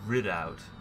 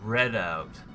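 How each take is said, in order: First: The first syllable sounds like 'rid'. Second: The first syllable sounds like 'red'. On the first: "It's supposed to be pronounced" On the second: "It's supposed to be pronounced"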